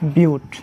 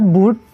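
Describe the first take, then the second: First: The vowel starts with a 'y' glide. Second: The vowel is a plain 'oo' sound. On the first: The speaker calls it right. "এটা উচ্চারণ কি হবে? বিউট" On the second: The speaker calls it wrong. "এটা not বুট"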